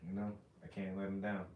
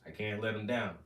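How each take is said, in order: First: Softer, lower and inward; hushed, heartfelt repeat of the promise; quiet sincere repeat. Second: Said in the usual way. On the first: Real, not acted. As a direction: say it again, almost to himself.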